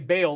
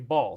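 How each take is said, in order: First: It is not said like the start of 'Balenciaga'. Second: It is said like the start of 'Balenciaga'. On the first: "they don't say Baal" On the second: "they say Baal"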